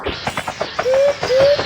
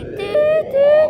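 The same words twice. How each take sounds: First: Dude called out high, rising; high urgent calling. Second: Dude called out high and eager; high urgent calling. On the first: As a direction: squeak it out to hurry them. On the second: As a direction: squeak it out, hurry them. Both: Pretend. Urging a friend in game.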